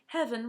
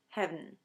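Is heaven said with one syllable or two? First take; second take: two; one. First: The word is said with two syllables. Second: The word is squeezed into one syllable. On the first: "heaven was often pronounced as" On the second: "collapse into just one syllable"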